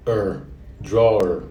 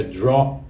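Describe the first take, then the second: First: "drawer" drawn out slowly with its r sound; full word. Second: "draw" said short, no final r; first part only. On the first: Teacher slowly models "drawer" for students. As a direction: stretch "drawer" and finish on the r. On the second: Teacher shows the first syllable of "draw" to students. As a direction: clip it at "draw" for a Portuguese learner. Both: Shown as a demonstration. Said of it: "Lembra que não é drawer".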